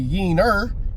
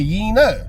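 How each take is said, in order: First: The word ends with an 'er' sound. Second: The word ends with an 'ah' sound. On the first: The speaker calls it wrong. "Don't say it with an E R" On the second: The speaker calls it right. "Say it with an A"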